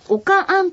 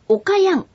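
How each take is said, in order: First: The i sound drops, giving o-ka-an. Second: The word is said in full as o-ka-i-an.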